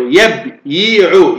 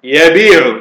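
First: يبيع very slowly split as yab-yi-'u; underlying form. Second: يبيع with a long i, ya-bii-'u; resulting form. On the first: Teacher showing the underlying pattern, يبيع split slowly as yab-yi-'u. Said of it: "ما هو وزن يبيع؟". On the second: Teacher giving the changed form, يبيع with a long i, ya-bii-'u. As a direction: join يبيع smoothly on a long vowel. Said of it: "فنقول يقول". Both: Shown as a demonstration.

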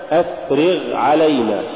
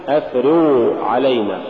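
First: أفرغ علينا with a clear, lighter gh after i; correct ghayn. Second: أفرغ علينا with the gh over-thickened into an oo-like blur; faulty ghayn. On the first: Tajweed teacher giving the example, correct ghayn. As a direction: sound the gh ending أفرغ. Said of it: "ونحو". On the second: Tajweed teacher showing the mistaken reading, faulty ghayn. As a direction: smear the end of أفرغ. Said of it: "تقرأ لحنا". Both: Shown as a demonstration.

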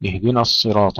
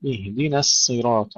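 First: اهدنا with thick "na" before الصراط; wrongly heavy nun. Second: Thin "na" in اهدنا, thick ص in الصراط; light nun, heavy sad. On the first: Teacher demonstrating common mistake, heavy nun in اهدنا الصراط. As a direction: let the heavy ص colour the ن of اهدنا. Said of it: "بتفخيم النون". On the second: Teacher modelling correction, light nun then heavy sad in اهدنا الصراط. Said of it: "فنرقق النون ونفخم الصاد". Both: Shown as a demonstration.

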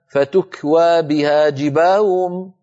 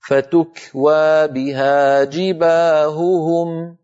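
First: "جباههم" said as jibaa'um, both ه blurred; wrong lost ه. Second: Slow recited "جباههم", both ه distinct; pure clear ه. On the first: Teacher showing what not to say, mispronounced. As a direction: let the ه sounds in "جباههم" vanish into a glide. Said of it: "ولا نقول مثلًا". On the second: Teacher modelling the correct reading, carefully articulated. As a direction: stretch "جباههم" as jibaa-hu-hum. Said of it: "وأن ننطق الهاء صافية". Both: Shown as a demonstration.

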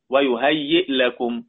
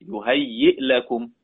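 First: Said in the usual way. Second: يهيئ لكم chanted high and slow, the hamza held; recited slowly. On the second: Shown as a demonstration. Teacher reciting the Kahf word for the class, slow and high. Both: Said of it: "يهيئ لكم من أمركم في سورة الكهف".

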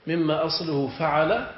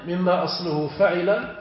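The two takes are said the same way.

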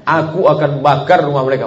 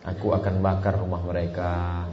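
First: Loud, higher angry threat "Aku akan bakar rumah mereka". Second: Smiling soft take. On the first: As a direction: spit out "bakar" as a real threat. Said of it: "ini ungkapan marah". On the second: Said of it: "Tak mungkin". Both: Shown as a demonstration.

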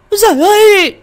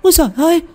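First: Louder, even higher shriek of terror; terrified scream. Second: High-pitched cry of terror; terrified cry. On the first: Woman sees ghost by window, louder panicked shriek. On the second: Woman sees ghost by window, terrified high cry. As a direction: cry out in fright, voice jumping high. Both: A narrator's reading. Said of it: "vừa kêu thét lên".

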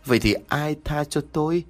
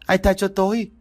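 First: Higher, bitter demand; bitter cry. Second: Screaming out. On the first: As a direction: ask it with bitter resentment. (giọng cao, cay đắng chất vấn) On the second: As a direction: scream each word out. (gào lên từng tiếng, giọng rất cao) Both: A narrator's reading. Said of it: "gào lên từng tiếng".

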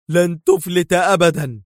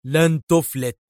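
First: Higher, louder yell, peaking on أبدًا; full yell of a threat; furious yell. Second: A raised yell, higher; rising yell of a threat. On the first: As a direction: scream the threat at the escaping car. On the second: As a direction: call the threat after the fleeing car. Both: A narrator's reading. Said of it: "ودار يصرخ".

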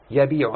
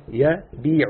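First: Said in the usual way. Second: "يبيع" said slowly, syllables drawn apart; slow demo. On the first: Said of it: "شوف، يبيع". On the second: Shown as a demonstration. Teacher repeating the student's answer, slow and drawn out. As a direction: stretch out "يبيع" so the student hears the kasra. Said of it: "شوف".

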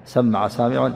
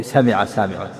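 First: سمع with a doubled, held m: samma'a; doubled-m reading. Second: سمع with a light single m: sami'a; single-m reading. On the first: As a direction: hold the m in سمع, 'samma-a'. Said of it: "أما بالتشديد سمع". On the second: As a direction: say سمع as 'sa-mi-a', short i. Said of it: "بالتخفيف سمع سامع". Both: Shown as a demonstration.

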